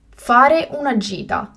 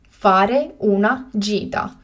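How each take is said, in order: First: Said in the usual way. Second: Slow and carefully spaced; slow, clear repetition. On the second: Shown as a demonstration. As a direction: say it again slowly for learners. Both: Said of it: "teacher repeats the word twice".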